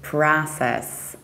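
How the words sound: The first vowel is an open A. "we say pra with a"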